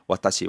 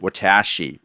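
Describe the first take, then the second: First: All syllables get equal weight and length. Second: One syllable is stressed more than the others. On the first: The speaker calls it right. "They give equal weight to each syllable" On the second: The speaker calls it wrong. "you tend to pronounce it"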